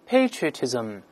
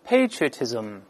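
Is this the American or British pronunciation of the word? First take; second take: American; American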